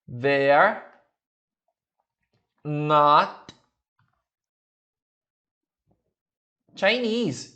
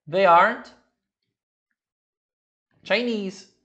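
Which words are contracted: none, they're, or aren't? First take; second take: they're; aren't. First: They and are merge into one syllable. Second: Are and not merge into one syllable. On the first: "They're, juntar esses dois" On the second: "ligar o are com not"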